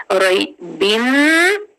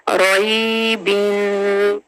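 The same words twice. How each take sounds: First: रोई बिन slow, rising on बिन; slow recitation; tajweed recitation. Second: रोई बिन slow with the tanween held; slow recitation; tajweed recitation. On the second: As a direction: draw out रोई बिन slowly. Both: Shown as a demonstration. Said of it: "तनवीन जो है वो आगे जाके मीम".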